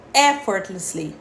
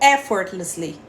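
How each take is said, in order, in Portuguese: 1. A tônica cai na primeira sílaba. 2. A tônica cai na primeira sílaba.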